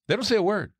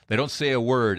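First: "They don't say a word" lifted high with stress on "say"; emphatic repeat. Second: Said in the usual way. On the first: Shown as a demonstration. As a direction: hit "say" hard and high.

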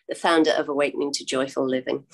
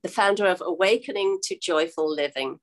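First: Fast, lower confirming repeat of the title; quick repeat. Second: Said in the usual way. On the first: Real, not acted. Host to viewers, quickly repeating the corrected title. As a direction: rattle it off once more to lock it in. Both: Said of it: "no, let me get this right".

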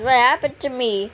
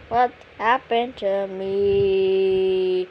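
First: Said in the usual way. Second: A lower, slowed-down puzzled drone; slow-motion confused; slow drawn-out question. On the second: Acted. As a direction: stretch every word out, slow. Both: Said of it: "repeated, second drawn out".

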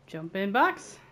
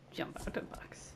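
First: Bright loud call with a rising end; louder playful call. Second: Mock secret whisper. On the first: Pretend. Playing a game, calling the order out louder. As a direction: announce it like a silly order. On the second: Playing a game, whispering the echo back to himself. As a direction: breathe it like a secret reply.

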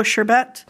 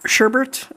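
First: "sherbet" as SHUR-bet, no second R; common pronunciation. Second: "sherbet" as SHUR-burt, with an added R; own pronunciation. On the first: Vlogger reading scent notes, "sherbet" said SHUR-bet. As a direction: say "sherbet" ending in a clear "bet". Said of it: "a lot of people pronounce it as". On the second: Vlogger correcting to own habit, "sherbet" said SHUR-burt. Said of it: "I pronounce it as sherbet". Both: Shown as a demonstration.

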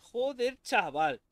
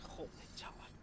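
First: Louder exasperated curse; loud outburst. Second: Whispered curse under breath. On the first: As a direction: bark it out in frustration. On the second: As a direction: breathe it out unvoiced. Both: Real, not acted. Muttered then shouted same words.

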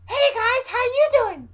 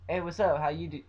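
First: Very high, loud squeaky greeting; mocking high-pitched voice. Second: Said in the usual way. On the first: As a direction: squeal the greeting to mock video makers. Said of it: "not a fucking high-pitched voice". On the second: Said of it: "talking in a normal voice".

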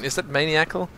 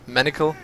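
First: "maniacal" as MAY-nee-ackle; may-nee-ACKLE pronunciation. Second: "Manical" as MAN-ickle, short first vowel; MAN-ickle pronunciation. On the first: Gamer unsure of the word, "maniacal" said MAY-nee-ackle. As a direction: say "maniacal" like maniac plus -le, questioning. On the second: Gamer trying another version, "Manical" said MAN-ickle. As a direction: try "Manical" to rhyme with panicle. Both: Shown as a demonstration.

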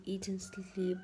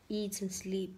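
First: Whispered echo. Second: Said in the usual way. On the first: Shown as a demonstration. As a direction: repeat "eat and sleep" as a soft, breathless whisper. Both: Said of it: "I want to".

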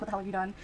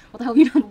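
First: Restrained angry-mom quote; mock mad mom. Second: Much louder angry-mom outburst; mock mad mom. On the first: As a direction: scold at ordinary volume, mock outrage held in. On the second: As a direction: yell it like an outraged mother. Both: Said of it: "She was so mad".

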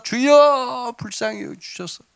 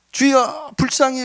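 First: Imitated louder cry. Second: High, pleading mock call; imitated crying out. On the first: Blind men crying out harder to Jesus, imitated drawn-out wail. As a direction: stretch the first word into a pleading call, then drop off. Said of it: "더 소리를 지르면서". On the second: Blind men calling to passing Jesus, imitated high cry. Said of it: "막 옆에서 소리를 지르니까".

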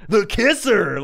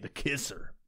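First: Loud, high station nickname; radio DJ voice. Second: Said in the usual way. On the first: Retold or imitated. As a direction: hit it like a hammed-up station ident. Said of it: "this weird fucking voice that they all do". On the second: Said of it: "make it the Kisser".

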